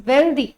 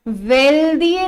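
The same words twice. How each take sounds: First: वेल्दी said short, ending in one ee sound; single vowel sound. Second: वेल्दिए stretched, with ई and ए sounded separately; wrong split-vowel reading. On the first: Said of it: "it's वेल्दी". (वेल्दी को एक ही स्वर ध्वनि के साथ) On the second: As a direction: draw out वेल्दिए, higher, ending in two vowels. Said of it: "वेल्दिए नहीं पढ़ते हो". (वेल्दिए के अंत में दोनों स्वर अलग, खींचकर) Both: Shown as a demonstration.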